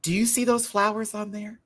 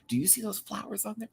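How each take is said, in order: First: High, eager pointing out the flowers; high excited question. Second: Softer, quicker, higher repeat; softer quick take. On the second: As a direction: rattle it off softer. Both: Shown as a demonstration. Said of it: "This is me".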